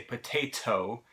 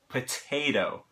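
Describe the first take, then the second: First: The second T is a crisp, full T. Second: The second T is a quick tongue flap. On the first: The speaker calls it wrong. "we don't say potato" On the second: The speaker calls it right. "it's potato"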